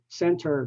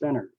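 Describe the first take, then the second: First: The T after the N is pronounced. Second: The T is dropped and the N takes over. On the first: "center becomes" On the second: "the N would take over"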